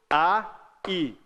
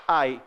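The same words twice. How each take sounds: First: "A" and "i" as two beats; separate syllables. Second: "ai" in one low, gliding beat; joined diphthong "ai"; same syllable. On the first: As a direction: break between the vowels in "A, i". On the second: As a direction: run A straight into I on "ai". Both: Shown as a demonstration. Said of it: "Mesma sílaba".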